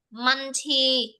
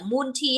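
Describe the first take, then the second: First: Multi said "MUN-tee" with an open first vowel, like "man-tee"; correct pronunciation. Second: Multi with a closed "oo", like "moon-tee"; mispronunciation. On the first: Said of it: "không phải là multi hay cái gì đấy". (multi đọc âm đầu mở, gần như "man-ti") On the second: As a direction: mimic the learner's mistaken "multi" as "moon-tee". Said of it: "không phải là multi hay cái gì đấy của mình đâu". (multi đọc sai thành "mun-ti") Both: Shown as a demonstration.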